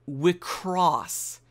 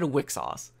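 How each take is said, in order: First: The name is said ending in 'cross'. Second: The name is said ending in 'xos'. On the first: This is the official pronunciation. "it's pronounced Selector Spread Wicross" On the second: This is the speaker's own pronunciation. "I'm gonna go to my original pronunciation"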